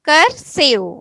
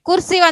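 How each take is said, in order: First: The first vowel sounds like 'er'. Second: The first vowel sounds like 'u' in 'put'. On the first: The speaker calls it right. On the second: The speaker calls it wrong.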